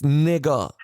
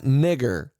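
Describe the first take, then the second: First: The word ends with an open 'ah' sound. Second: The word ends with a clear 'r' sound. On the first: The speaker calls it right. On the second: The speaker calls it wrong.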